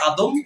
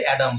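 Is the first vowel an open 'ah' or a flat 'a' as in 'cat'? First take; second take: ah; flat a. First: The first vowel is an open 'ah' sound. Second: The first vowel is a flat 'a' sound. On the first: This is the Arabic or Bengali form. "আরবিতে বা বাংলায় আমরা বলি আদম" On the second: This is the English form. "ইংলিশে ... অ্যাডাম বলে"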